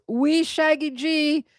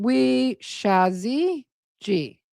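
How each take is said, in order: First: "Wee Shaggy G" sounded out slowly, higher; unsure pronunciation. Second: "Wee Shazzy G" stretched out very slowly; unsure pronunciation. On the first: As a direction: stretch "Wee Shaggy G", with a hard g in Shaggy. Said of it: "I can't say that either". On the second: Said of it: "I think". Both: Real, not acted.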